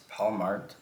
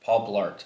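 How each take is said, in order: First: Mart said as Mart, missing the Bl; "Paul Mart" said unsure, without the Bl sound; wrong name. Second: Blart said clearly with Bl; "Paul Blart" said firmly with the Bl sound; corrected name. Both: Real, not acted. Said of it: "That sounds really wrong".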